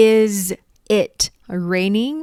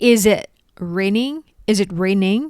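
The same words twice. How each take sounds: First: "Is", "it", "raining" with pauses between; slow separated words. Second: "Is it raining" linked as "izit"; fast linked speech. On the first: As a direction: say each word alone. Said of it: "ฝนกำลังตกอยู่แม่นบ่จ๊ะ?". (พูดแยกทีละคำ) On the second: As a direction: join the sounds, say it fast. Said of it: "พูดเร็วๆ เชื่อมเสียง". (พูดเร็วๆ เชื่อมเสียง) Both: Shown as a demonstration.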